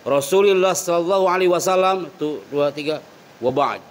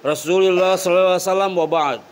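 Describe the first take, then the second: First: A pause of a few seconds comes before the last words. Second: It runs straight into the last words without pausing. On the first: The speaker calls it right. "Kasih jeda dulu" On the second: The speaker calls it wrong.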